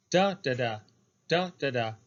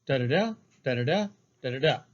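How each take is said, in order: First: "Da, da, da" with the first DA stressed and set apart; dactylic falling rhythm. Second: "Da-da-da" rising to a stressed last DA; anapestic rhythm. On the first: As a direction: chant "Da, da, da" strong, weak, weak. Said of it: "a dactylic line". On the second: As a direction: chant "Da-da-da" weak, weak, strong. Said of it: "the anapestic line". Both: Shown as a demonstration.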